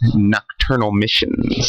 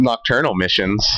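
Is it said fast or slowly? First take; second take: slowly; fast. First: It is said slowly and deliberately. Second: It is said at a normal, quick pace.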